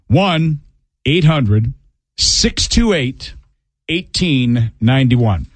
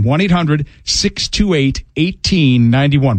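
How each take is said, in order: First: The number is said slowly. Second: The number is said at normal speed.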